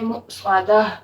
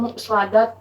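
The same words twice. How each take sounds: First: The word ends with a soft h sound. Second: The word ends with a t sound. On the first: The speaker calls it right. "हम इसको पढ़ेंगे मुस्वादा" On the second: The speaker calls it wrong. "हम इसको मुस्वादा नहीं पढ़ेंगे"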